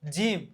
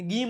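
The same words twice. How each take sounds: First: જીમ opening on a j sound; soft-g reading. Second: ગીમ with a hard g as in go; wrong hard-g reading. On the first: Teacher shows students how gym reads, જીમ with j. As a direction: say જીમ with j, not hard g. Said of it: "જીમ વચે". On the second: Teacher warns students off the misreading, ગીમ with hard g. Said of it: "ને ગીમ નો વચે". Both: Shown as a demonstration.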